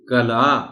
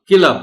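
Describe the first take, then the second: First: The first vowel is 'a'. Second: The first vowel is 'i'. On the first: The speaker calls it right. "काफ पर जबर है" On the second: The speaker calls it wrong. "किला बोल देते हैं"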